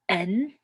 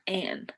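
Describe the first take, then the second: First: It sounds like the letter N. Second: It sounds like the name Anne. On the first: "like you're saying like the letter n" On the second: "like the name Anne"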